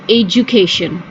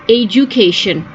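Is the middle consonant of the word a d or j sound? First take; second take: j; j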